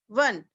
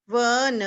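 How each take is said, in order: First: Said in the usual way. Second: वन as a long व, then a long न; say-along sounding out. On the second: Shown as a demonstration. Teacher asking children to repeat along, sounded out. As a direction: stretch वन into two letter sounds. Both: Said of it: "मेरे साथ बोलिए".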